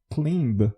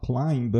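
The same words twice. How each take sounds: First: "climb" with a steady ee vowel in place of the eye glide; mispronounced "climb". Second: Said in the usual way. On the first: Shown as a demonstration. Teacher showing learners a mispronounced verb, "climb" said with an ee vowel. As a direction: say "climb" wrongly, with an unchanging ee-like vowel. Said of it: "If I mispronounce it". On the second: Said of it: "and not climb".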